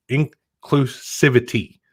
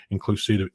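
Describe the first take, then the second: First: INCLUSIVITY drawn out slowly, part by part; deliberate, careful, syllable-by-syllable "inclusivity". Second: Said in the usual way. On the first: Real, not acted. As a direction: sound out "inclusivity" slowly and firmly, louder. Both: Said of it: "Let me say that slowly".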